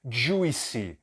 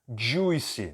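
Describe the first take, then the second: No difference in how they are said.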